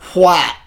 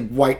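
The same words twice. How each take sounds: First: It starts with a breathy hw sound. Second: It starts with a plain w sound. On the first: "they actually pronounce the W"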